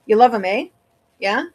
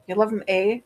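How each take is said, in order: First: Wisconsin lilt, the eh rising at the end; Wisconsin accent. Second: Playing up the Wisconsin accent, rising on the eh; mock Wisconsin accent. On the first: Real, not acted. Streamer catches her own Wisconsin accent talking to chat. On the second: Shown as a demonstration. Streamer repeats her line to mock her own Wisconsin accent. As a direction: repeat it hamming up the Wisconsin sound. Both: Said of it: "I sounded so Wisconsin there".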